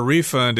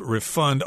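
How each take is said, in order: First: REfund, first syllable stressed as the noun; "refund" stressed up front, noun form. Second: ReFUND, second syllable stressed as the verb; "refund" with stress on the end, verb form. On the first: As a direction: say "refund" with the weight on RE. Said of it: "Usually the accent is on the second syllable when it's a verb". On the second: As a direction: say "refund" leaning on FUND. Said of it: "the accent is on the second syllable when it's a verb". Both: Shown as a demonstration.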